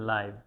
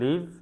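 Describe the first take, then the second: First: The vowel is an 'eye' sound. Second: The vowel is a short 'i' sound. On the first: It means happening in real time. "আবার কখনো বলি লাইভ" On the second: It means to reside somewhere. "কখনো বলি লিভ"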